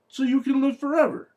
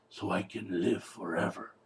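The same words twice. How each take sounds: First: High-pitched, incredulous repeat of the line; sarcastic echo, pitched way up; exasperated echo. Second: Low, soft mock-doctor delivery; understated, deep-pitched imitation of the doctor; doctor's reply. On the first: Real, not acted. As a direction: throw the line back in high disbelief. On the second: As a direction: drop down low and quiet for the doctor. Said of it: "And the doctor says".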